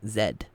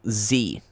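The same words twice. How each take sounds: First: The letter is said the British way, zed. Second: The letter is said the American way, zee.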